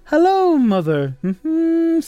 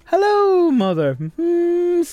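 First: High squeaky "Hello" sliding down into "mother", then a high "Mm-hmm"; mock movie line. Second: Very high "Hello" dropping to "mother", then a high "Mm-hmm"; mock movie line. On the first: Presenter quoting a movie line at the awards, high-pitched and camp. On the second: Repeating the presenter's funny movie line, high and camp. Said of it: "the way he said it was very funny".

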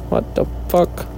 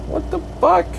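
First: Breathy whispered swear; whispered disbelief. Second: High squeaky disbelief. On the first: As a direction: mutter it in a whisper. Same question, second take. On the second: Confused at the bill. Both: Real, not acted.

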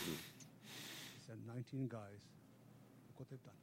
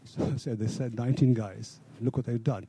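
First: Barely audible, much softer; trailing off so the room can't hear; mumbled under the breath; too quiet. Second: Much louder, projecting to the room; raised voice after being told to speak up; louder on request. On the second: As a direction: speak up so the back row hears. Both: Real, not acted. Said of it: "Speak up, please".

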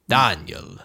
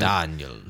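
First: Daniel as Dahn-yel in a lower mock count voice; vampire accent. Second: Daniel as Dahn-yel, low and heavy; vampire accent. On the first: Host repeating the name in the vampire accent. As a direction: roll the name out like a Transylvanian count. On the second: Pretend. Host trying the name in the vampire accent, low. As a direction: say Daniel like a mock Transylvanian count. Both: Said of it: "you can't do Daniel in that accent".

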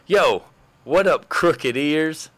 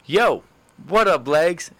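First: High, slow, fumbling pickup line; drawn-out clumsy version of the line; awkward pickup attempt. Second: High, cocky pickup line; pitched-up slick greeting to a girl; smooth pickup line. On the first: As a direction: try to sound smooth and fail. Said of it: "it'd be something like this". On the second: Retold or imitated. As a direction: toss it off like a confident player. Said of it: "picked up a girl easy like this".

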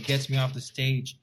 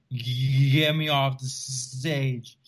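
First: Said in the usual way. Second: Slow, drawn-out stutter of mock panic; shaking, stuttering. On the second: Bombing comic begs the MC, imitated shaking stutter. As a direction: act out shaking so hard the words stick. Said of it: "My voice starts to shake".

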